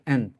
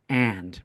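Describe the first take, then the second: First: The word is reduced to a short weak form. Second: The word is said in full with clear vowel. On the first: "in common fast speech, we don't say and, we just say and" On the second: "if you wanted to be more clear, you would say and"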